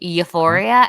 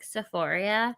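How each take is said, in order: First: The word begins with a you sound. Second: The word begins with an S sound. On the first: The speaker calls it right. "they can't even pronounce it right" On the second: The speaker calls it wrong. "they call it like Sephoria"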